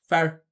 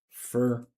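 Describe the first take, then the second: First: The vowel is reduced, sounding like 'fer'. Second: The vowel is full, sounding like 'for'. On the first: The speaker calls it wrong. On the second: The speaker calls it right.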